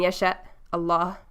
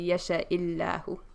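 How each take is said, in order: First: The words are separated, with no linking vowel. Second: An added i-vowel links the two words smoothly. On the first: The speaker calls it wrong. "which sounds choppy" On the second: The speaker calls it right. "put the kasra so you can say"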